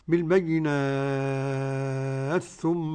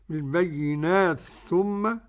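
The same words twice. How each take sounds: First: The long vowel is held for six counts. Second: The long vowel is held for two counts. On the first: "ست حركات" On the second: "حركتين"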